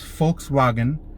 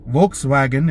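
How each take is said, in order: First: It begins with an F sound, German style. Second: It begins with a V sound, English style. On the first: The speaker calls it right. "It's not. It's Volkswagen" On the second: The speaker calls it wrong. "I had it wrong all this time"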